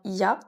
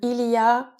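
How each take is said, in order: First: The l sound of il is dropped. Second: The l sound of il is pronounced.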